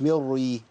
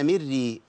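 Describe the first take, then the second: First: The r is thick and heavy. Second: The r is thin and light. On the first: The speaker calls it wrong. "مش مري" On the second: The speaker calls it right. "الراء مشددة بالكسر"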